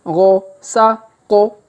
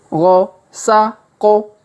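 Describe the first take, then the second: No difference in how they are said.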